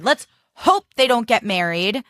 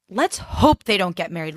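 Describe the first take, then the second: First: "Let's hope" pushed higher, stressed on "hope"; emphatic repeat. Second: Said in the usual way. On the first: Real, not acted. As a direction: repeat it with a pointed lift on "hope".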